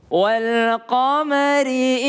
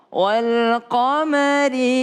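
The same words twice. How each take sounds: The two takes are said the same way.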